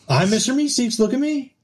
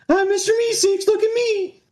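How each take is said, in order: First: It is said in his normal voice. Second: It is said in a Mister Meeseeks voice.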